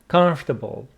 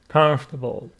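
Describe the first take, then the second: First: The middle 'or' syllable is dropped. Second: The same.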